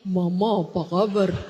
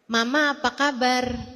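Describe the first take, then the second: First: It is said in a deep, low voice. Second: It is said in a high, boyish voice.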